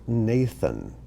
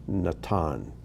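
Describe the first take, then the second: First: Nathan as NAY-thun, stress up front; English pronunciation. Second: Natan as na-TAHN, stress on the end; Hebrew pronunciation. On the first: Teacher gives the Bible translation's form, English pronunciation. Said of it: "in our English translations, it's pronounced". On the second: Teacher contrasts it with English, Hebrew pronunciation. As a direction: say Natan with open ah and a hard t. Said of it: "but in Hebrew". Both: Shown as a demonstration.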